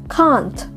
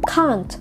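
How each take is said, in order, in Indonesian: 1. Diucapkan dengan aksen Inggris. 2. Diucapkan dengan aksen Inggris.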